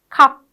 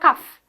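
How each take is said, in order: First: The word ends with a p sound. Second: The word ends with an f sound. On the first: The speaker calls it right. "P, okay, ... it's cup" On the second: The speaker calls it wrong. "it's not cuff"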